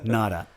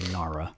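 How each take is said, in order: First: The name is said with Japanese-style pronunciation. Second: The name is said with English-style pronunciation. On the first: The speaker calls it right. "It's Nara" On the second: The speaker calls it wrong. "you're not pronouncing it right if you say Nara"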